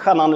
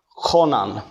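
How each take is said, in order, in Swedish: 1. Det första ljudet görs inte djupt i halsen. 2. Det första ljudet görs djupt i halsen. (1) "inte chanan" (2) "det är långt ner i halsen"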